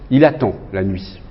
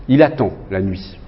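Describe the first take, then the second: First: There is a pause after 'il attend'. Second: The same.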